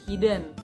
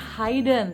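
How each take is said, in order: First: The first vowel sounds like 'it'. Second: The first vowel sounds like 'eye'. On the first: The speaker calls it right. "tapi hidden" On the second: The speaker calls it wrong. "bukan hidden ... i-nya bukan I"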